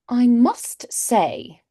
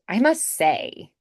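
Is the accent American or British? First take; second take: British; American. First: It is said in a tall, rounded British way. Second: It is said in a wide, bright American way.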